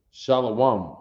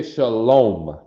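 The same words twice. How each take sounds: First: "Shalom" as "SHAH-luh-wahm"; disputed pronunciation. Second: "shalom" as "shuh-LOME", long O; Yiddish pronunciation. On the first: Teacher quoting a version he doubts, "shah-luh-wahm". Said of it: "I don't know what that is". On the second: Teacher quoting what he calls Yiddish, "shuh-lome". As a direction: round the O in "shalom". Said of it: "they're not speaking Paleo Hebrew". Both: Shown as a demonstration.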